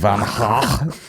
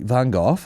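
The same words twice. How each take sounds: First: The name is said with a Dutch pronunciation. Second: The name is said with an English pronunciation. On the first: The speaker calls it right. "when you're Dutch, it's like" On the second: The speaker calls it wrong. "They don't even know what you're saying"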